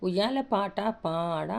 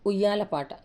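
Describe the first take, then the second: First: Slow chant, "పాట పాడ" drawn out; sung, stretch the long vowels of "పాట పాడ"; sung, rhyme with long vowels. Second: Said in the usual way. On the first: Shown as a demonstration. Teacher reading out a lullaby rhyme, slow chant on "పాట పాడ". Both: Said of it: "దీర్ఘం పెడితేనే రాగం సరిగా".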